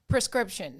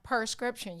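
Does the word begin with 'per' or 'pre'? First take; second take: pre; per. First: The first syllable is said as pre. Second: The first syllable is said as per. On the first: The speaker calls it right. "Prescription, not per" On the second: The speaker calls it wrong.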